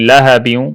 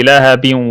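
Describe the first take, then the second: The two takes are said the same way.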